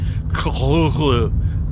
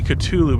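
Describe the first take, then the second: First: The name is said an unusual, unfamiliar way. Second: The name is said the familiar English way. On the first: The speaker calls it right. "You're supposed to say it like Cthulhu or something like that" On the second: The speaker calls it wrong. "But that's not how you say it"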